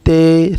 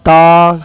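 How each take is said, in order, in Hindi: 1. उर्दू लहजा, 'ay' स्वर पर खत्म होता है। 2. अरबी लहजा, 'ah' स्वर पर खत्म होता है। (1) "बहुत से ऐसे लोग होते हैं जो इसको इस तरह पढ़ते हैं" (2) "बल्कि इसको इस तरह पढ़ना चाहिए"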